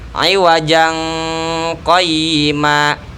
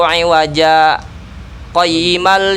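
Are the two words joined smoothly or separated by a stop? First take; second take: joined; stopped. First: The words run together with a nasal link. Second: A brief stop without breath separates the words. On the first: "Harusnya dibaca gimana?" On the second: "sama kayak berhenti ... tapi tanpa bernapas"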